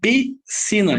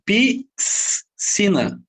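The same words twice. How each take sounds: First: Only one sound is made for S and C. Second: The S and C are sounded separately. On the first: The speaker calls it right. "eu só pronuncio o som da letra C" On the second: The speaker calls it wrong. "Eu não falo piscina, não, eu não separo o S do C"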